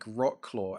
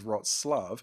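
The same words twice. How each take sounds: First: The name is read the way its letters look. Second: The name sounds nothing like its written letters. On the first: The speaker calls it wrong. "you look at how it's spelled" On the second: The speaker calls it right. "the pronunciation of that is Wroclaw, ... it looks nothing like that"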